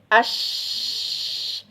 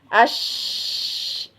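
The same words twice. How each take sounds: The two takes are said the same way.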